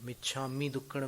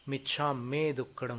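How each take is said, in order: First: The syllable after michchha is said as 'mi'. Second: The syllable after michchha is said as 'me'. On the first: The speaker calls it wrong. "मिच्छा मी दुक्कडम नहीं होता है" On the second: The speaker calls it right. "मिच्छा में दुक्कडम होता है"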